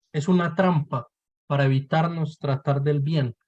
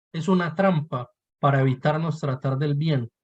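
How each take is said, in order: Both takes have the same delivery.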